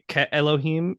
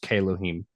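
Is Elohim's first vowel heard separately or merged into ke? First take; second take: separate; merged. First: Elohim's first vowel is said separately after ke. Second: Elohim's first vowel is absorbed into ke. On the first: The speaker calls it wrong. "you don't say" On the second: The speaker calls it right. "it's just"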